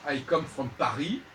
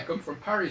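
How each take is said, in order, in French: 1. Paris se prononce avec des sons français. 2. Paris se prononce avec des sons anglais. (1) "il va pas dire" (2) "prononcer ... à l'anglaise"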